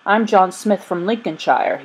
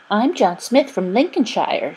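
First: Said in the usual way. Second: Higher, swooping mimicry of a boy's introduction; singsong mockery; mocking repetition. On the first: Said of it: "he said". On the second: A narrator's reading. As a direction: make fun of him in a put-on voice. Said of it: "making fun of him".

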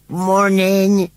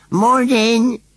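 First: High, loud wheezy "Morning" from a scarecrow; wheezed greeting. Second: Very high, louder, pleading "Morning"; pathetic repeat. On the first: Scarecrow greets the children from the rubbish heap, wheezing. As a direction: wheeze out the word like a creaky old scarecrow. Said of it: "he wheezed". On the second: Scarecrow calls after the departing boy, pathetically. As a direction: call it after them, pitiful and forlorn. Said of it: "repeated Gummidge pathetically". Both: Acted.

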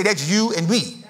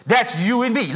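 First: Slow, deliberate, a bit softer; slow call-and-response. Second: Said in the usual way. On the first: Shown as a demonstration. Preacher has congregation tell each other, slow and deliberate. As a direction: lean in and say it slowly to your neighbour. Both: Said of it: "Look at somebody and say".

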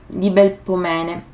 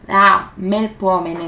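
First: Belpomene said slowly with a B, a wrong try; mispronounced name. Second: Melpomene said very slowly with an M, the correction; corrected name. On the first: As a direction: stumble over Belpomene, starting it with B. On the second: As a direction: fix it carefully to Melpomene. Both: Shown as a demonstration. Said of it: "non so pronunciarlo".

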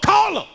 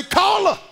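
First: High loud laughing yell; defiant yell. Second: High, loud defiant bark; defiant shout. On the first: [name]'s take of same line. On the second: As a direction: throw it back defiantly. Kid copying defiance. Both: Retold or imitated.

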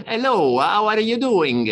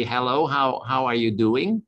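First: French-accented English, much higher and louder, slow; mock French accent. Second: Said in the usual way. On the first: Shown as a demonstration. Speaker imitating how a Frenchman speaks English, in a hammed-up French accent. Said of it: "a Frenchman would say". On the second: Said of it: "an Englishman would say".

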